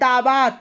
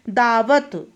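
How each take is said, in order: First: The second vowel is long. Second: The second vowel is short. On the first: The speaker calls it wrong. "अशुद्ध क्या है" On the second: The speaker calls it right. "क्या होता है"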